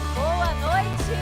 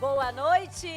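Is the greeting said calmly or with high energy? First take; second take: calmly; high energy. First: It is said with ordinary energy. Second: It is said with more energy and enthusiasm.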